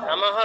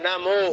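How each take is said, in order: First: The word ends with a breathy h sound. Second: The word ends with a clear o vowel. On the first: The speaker calls it wrong. "নমঃ নয়" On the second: The speaker calls it right. "নমো ও"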